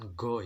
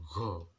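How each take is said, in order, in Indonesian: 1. Diawali dengan bunyi g keras biasa. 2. Diawali dengan bunyi gh kasar dari tenggorokan. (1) "bukan go ya, G A O bukan, atau go G O bukan" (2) "tapi G H O"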